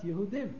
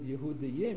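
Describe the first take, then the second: First: The word ends with a short 'dim' sound. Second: The word ends with a drawn-out 'dayim' sound. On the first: The speaker calls it right. "you're supposed to pronounce Yehudim" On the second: The speaker calls it wrong. "you're not supposed to pronounce the both Yuds Yehudayim"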